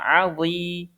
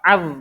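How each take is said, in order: First: The word ends with a held final vowel i. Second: The word ends on a consonant, no final vowel. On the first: The speaker calls it right. "tapi dibacanya azi" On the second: The speaker calls it wrong. "Itu enggak az"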